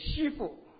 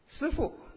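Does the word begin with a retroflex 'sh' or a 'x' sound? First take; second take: x sound; retroflex sh. First: The word begins with a flat 'x' sound. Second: The word begins with a retroflex 'sh' sound.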